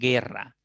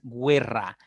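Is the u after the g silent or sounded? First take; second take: silent; sounded. First: The u after the g is silent. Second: The u after the g is sounded. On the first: The speaker calls it right. "dices guerra" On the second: The speaker calls it wrong. "tú no pronuncias guerra"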